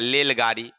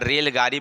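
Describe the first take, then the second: First: The word begins with an l sound. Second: The word begins with an r sound. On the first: The speaker calls it wrong. "तो बोलेगा लेलगाड़ी" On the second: The speaker calls it right. "अब उसको कहिएगा रेलगाड़ी बोलने के लिए"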